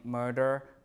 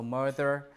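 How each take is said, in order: First: The middle consonant is a plain d sound. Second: The middle consonant is a voiced th sound. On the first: This is the later pronunciation. "becomes just the D after R and before L" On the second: This is the older pronunciation. "voice interdental fricative here"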